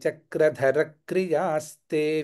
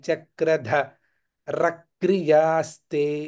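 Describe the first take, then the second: First: The 'ra' syllable ends the first word. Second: The 'ra' syllable starts the second word. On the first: The speaker calls it right. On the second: The speaker calls it wrong.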